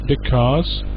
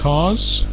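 First: Both syllables are said in full. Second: Only the second syllable is said. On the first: "So what is the full form?" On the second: "So you might know these contractions"

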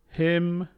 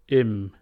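First: The word starts with a clear h sound. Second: The word starts without any h sound.

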